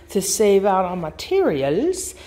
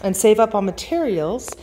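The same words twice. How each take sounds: First: "materials" with an exaggerated pitch swoop; odd intonation. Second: Said in the usual way. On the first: Real, not acted. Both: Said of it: "why I said it like that".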